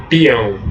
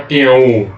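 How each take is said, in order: First: Peão com o O fraquinho, semivogal; correct peão. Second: Peão dito com U final separado e forte. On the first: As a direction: diga peão, o ão numa sílaba só. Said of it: "não é peão". (peão com ditongo correto) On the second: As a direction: diga peão U, o U como vogal cheia. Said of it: "não é peão U". (peão com U vogal separado) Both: Shown as a demonstration.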